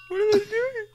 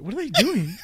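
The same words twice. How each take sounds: First: Very high, squeaky question; squeaky bewilderment. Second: Slightly raised, puzzled question. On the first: Pretend. Gamer watching enemies from hiding, squeaky bewilderment. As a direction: squeak it in baffled alarm. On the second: Real, not acted. Gamer watching enemies from hiding, mildly puzzled. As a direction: ask it in mild surprise.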